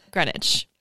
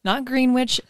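First: Greenwich said Gren-ich, low and falling; right Greenwich. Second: Greenwich said Green-witch, rising; wrong Greenwich. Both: Shown as a demonstration. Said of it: "Not Greenwich, Greenwich".

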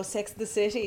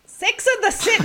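First: Very quiet, gentle Edinburgh lilt; soft Edinburgh accent. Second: High-pitched Scottish attempt drifting into Indian; failed Scottish accent. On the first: Retold or imitated. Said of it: "soft, like, Edinburgh". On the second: Shown as a demonstration. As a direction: try a Scottish accent and miss it badly. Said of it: "That went a bit Indian".

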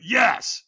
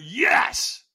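First: Higher, fairly forceful yes; obey with a short, firm cry; first, weaker yes. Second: Higher, drawn-out forceful yes; stronger yes. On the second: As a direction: push the cry out harder and longer. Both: Retold or imitated.

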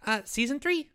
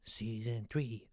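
First: Bright, louder announcement of the news; excited reveal. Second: Much lower, softer and slow, dramatic; low slow reveal. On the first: Boy blurts out the big news to the listeners, excited. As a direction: punch it out eagerly. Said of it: "what about the announcement?". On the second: Boy retries the announcement in a low dramatic voice. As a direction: drop it low like a movie trailer. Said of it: "There you go". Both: Shown as a demonstration.

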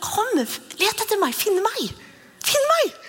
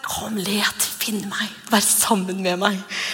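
First: High, slow, playful call to come and find; God voiced as a high playful hide-and-seek call. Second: Tender invitation. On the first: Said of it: "Det er jo bibelvers på det". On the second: Pretend. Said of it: "jeg tror han har den".

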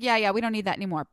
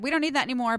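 First: Put-on fast, brusque New York accent. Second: Said in the usual way. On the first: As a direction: rattle it off like a New Yorker. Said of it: "that's my New York accent". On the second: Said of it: "But he said".

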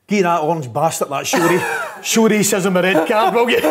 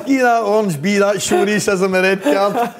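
First: Retold line breaking into higher laughter; can't get the punchline out for laughing; cracking up retelling a teammate's joke; laughing through quote. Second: High, slower, giggling repeat of the line; laughing retelling. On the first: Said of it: "he goes". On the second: Retold or imitated. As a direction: savour the punchline while laughing. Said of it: "He says".

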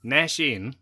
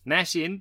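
First: Said in the usual way. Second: "Nash" lifted higher with a rising tune, quoting; reading a tweet. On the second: Retold or imitated. Reading out a fan's tweet, "Nash" lifted with a rise. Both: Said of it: "this is from Bobby Crisp".

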